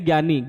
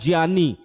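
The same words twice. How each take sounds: First: The first sound is not a 'jy' blend. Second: The first sound is a 'jy' blend. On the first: The speaker calls it wrong. "सब जगह क्या पढ़ाते हैं?" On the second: The speaker calls it right. "ज्य से ज्ञानी होता है"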